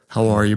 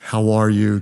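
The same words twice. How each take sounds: First: It is said in a casual, offhand way. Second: It is said warmly and sincerely.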